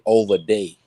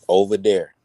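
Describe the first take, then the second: First: The second word begins with a d sound. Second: The second word begins with a th sound. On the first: This is how the other group says it. "They will say over day" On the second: This is how the speaker's own group says it. "no different than us saying over there"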